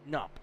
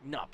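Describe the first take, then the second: First: The K at the start is silent. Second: The same.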